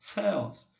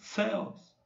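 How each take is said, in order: No difference in how they are said.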